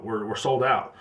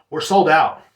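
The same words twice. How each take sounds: First: Said in the usual way. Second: Louder, insistent retelling of a yell; mock yell into the phone; retold yell. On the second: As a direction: raise your voice at a caller who won't hear. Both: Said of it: "And then I yelled at her".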